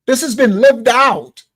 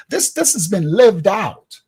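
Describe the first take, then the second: First: "This has been lived out" said louder, slow and weighty; emphatic repeat. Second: Said in the usual way. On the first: Real, not acted. Preacher repeating his point to the viewers, louder and slower. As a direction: lean hard on "lived". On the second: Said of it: "repeats the phrase for emphasis".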